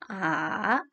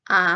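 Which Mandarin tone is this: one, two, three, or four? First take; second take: three; two. First: The pitch falls and then rises. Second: The pitch rises quickly and briefly. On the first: "nada ketiga, kita turun lalu naik" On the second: "nada dua, itu naik ke atas"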